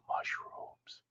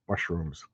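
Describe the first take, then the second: First: Hushed, unvoiced whisper of "Mushrooms"; barely-there whispered aside. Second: Said in the usual way. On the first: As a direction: whisper it very softly, like an echo. Repeats the word in a whisper.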